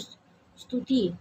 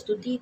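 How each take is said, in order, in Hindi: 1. अंतिम स्वर लंबा है। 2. अंतिम स्वर छोटा है।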